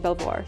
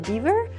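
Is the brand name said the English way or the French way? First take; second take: French; English. First: It sounds French, with 'bel' and 'vwar' sounds. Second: It sounds like 'beaver', with no 'l' sound. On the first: This is how the speaker says it. "I pronounce it Belvoir, so uh, I had French education" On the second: This is how others say it. "I heard it could be Bever or Beaver"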